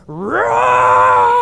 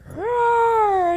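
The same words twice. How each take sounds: First: Long, loud lion roar; loud bellowing roar. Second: High, smaller attempt at a roar; young cub's roar. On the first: Acted. Older lion showing the cub how, bellowing roar. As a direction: bellow a huge, drawn-out roar. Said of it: "This loud, bellowous lion roar". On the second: Young cub trying his first roar, high and modest. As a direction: try a high little lion roar. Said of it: "it's not as great as the older lion".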